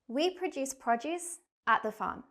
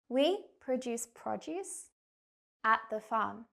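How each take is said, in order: First: The sentence is spoken at a fast pace. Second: The sentence is spoken at a slow pace. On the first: "I'm going to say the sentence first quickly" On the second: "I'm going to say it again, but slower"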